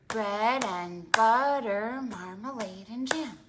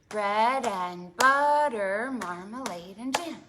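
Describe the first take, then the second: The two takes are said the same way.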